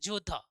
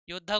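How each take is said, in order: First: The word begins with a j sound. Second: The word begins with a y sound.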